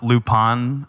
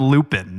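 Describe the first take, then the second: First: The name is said in a Japanese-sounding way. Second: The name is said in an English-sounding way. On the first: This is how the name should be said. The speaker calls it right. "not Lupin" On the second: This is how the dub says the name. The speaker calls it wrong. "they call him Lupin"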